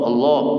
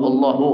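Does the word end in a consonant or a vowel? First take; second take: consonant; vowel. First: The word ends on the final consonant, no vowel. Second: The word ends with an added final u vowel. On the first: The speaker calls it right. "Jadi bacanya Allah" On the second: The speaker calls it wrong. "bukan Allahu"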